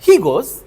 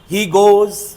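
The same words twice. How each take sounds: First: It is said with surprise. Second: It is said as a plain statement.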